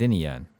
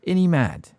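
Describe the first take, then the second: First: Said in the usual way. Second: Ain't he mad pushed higher and louder; insistent. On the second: Acted. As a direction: press Ern for agreement. Stan presses the question.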